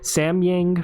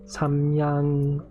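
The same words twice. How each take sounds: First: It is said with a Western accent. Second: It is said with a Korean accent. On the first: "I'm trying to say it with like a Western accent" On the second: "In Korean, we pronounce it"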